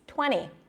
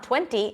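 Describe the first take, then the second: First: The T after the N is dropped. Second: The T after the N is clearly pronounced. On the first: The speaker calls it right. "when the T appears after an N, you often drop it" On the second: The speaker calls it wrong. "so it's not twenty"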